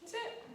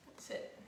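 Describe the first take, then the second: First: High squeak. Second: Whispered. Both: Real, not acted.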